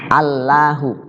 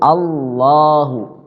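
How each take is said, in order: First: The L is light and thin. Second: The L is dark and heavy. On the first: "Lam tuh kalau berbaris fathah jadi" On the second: "dibaca tafkhim"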